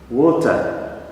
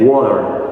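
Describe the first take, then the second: First: It is said in a British accent. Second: It is said in an American accent.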